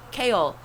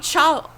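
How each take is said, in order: First: The name begins with a k sound. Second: The name begins with a ch sound. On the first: This is the pronunciation the book intends. "makes no sense to me" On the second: This is how the speaker would read the spelling. "That's not how I'd fucking pronounce that. It'd be Chawl"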